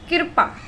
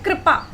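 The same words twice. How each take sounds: First: कृपा said wrongly as "kirpa", with the i before the r; teacher shows the mistaken "kirpa" for कृपा; wrong pronunciation. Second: कृपा said properly as "kripa", r gliding straight after k; correct pronunciation. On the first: Teacher showing students the wrong way to say कृपा, as "kirpa". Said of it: "बोलने में भी गलत हो रहा है". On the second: Teacher giving students the right pronunciation of कृपा, "kripa". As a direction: say कृपा cleanly, "kri-pa". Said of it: "कैसे बोलते हैं?". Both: Shown as a demonstration.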